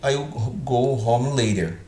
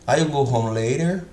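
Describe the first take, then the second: First: It is said with a statement intonation. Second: It is said with a questioning intonation. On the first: The speaker calls it right. "Eu estou afirmando" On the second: The speaker calls it wrong. "eu estou dando entonação de, de interrogativa"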